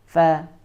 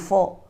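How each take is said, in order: First: The fa sound is light with spread lips. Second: The fa sound is heavy with rounded vowel. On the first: The speaker calls it right. "fa itu dia tipis ya, nggak boleh dibaca tebal" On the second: The speaker calls it wrong. "Kebanyakan kita membacanya fa jadi tebal"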